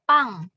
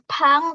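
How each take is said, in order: First: The first consonant has no puff of air. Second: The first consonant has a strong puff of air. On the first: The speaker calls it right. "tapi pang" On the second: The speaker calls it wrong. "Tidak pakai H. Bukan pang"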